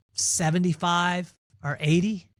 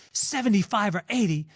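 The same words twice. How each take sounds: First: Slow, relaxed and easy, no rush; calm, unhurried answer. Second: Higher, stunned repeat of the number; can't believe what he just heard; incredulous disbelief. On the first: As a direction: lean back and let the number drop slowly. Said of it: "my pops very calmly". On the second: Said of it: "almost came across his desk". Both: Retold or imitated.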